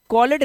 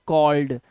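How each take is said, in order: First: कॉलेड with a full "ed" syllable; wrong reading. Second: कॉल्ड as one syllable, lower; correct reading. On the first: Teacher showing how not to read it, wrong two-syllable reading. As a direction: say कॉलेड as two beats, call-ed. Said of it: "इसे कॉलेड नहीं पढ़ते". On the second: Teacher correcting the misreading for learners, one-syllable ending. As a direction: drop the e in कॉल्ड, d straight after l. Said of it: "इसे सिर्फ पढ़ते हैं". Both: Shown as a demonstration.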